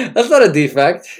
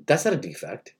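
First: Loud, mock-earnest proclamation; emphatic declaration. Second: Said in the usual way. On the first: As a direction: declare it loudly like a sermon.

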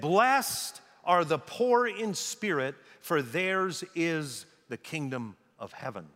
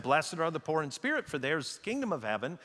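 First: Slow solemn proclamation, phrase by phrase; slow, weighty. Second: Brisk run-through of the quote, no pauses; quick, unweighted. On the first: Preacher quoting Jesus' inaugural talk, slow and weighty. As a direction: draw it out and let each phrase land. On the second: Preacher quoting it as if someone else said it, quick and unweighted. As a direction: toss it off quickly, without weight. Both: Retold or imitated.

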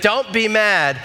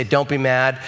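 First: "Don't be mad" raised and pleading; worried warning. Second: Said in the usual way. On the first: Retold or imitated. Wife warning husband before bad news, pleading. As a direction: ease him gently into bad news. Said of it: "But she leads with". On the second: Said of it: "Sometimes I just wanna call someone and say".

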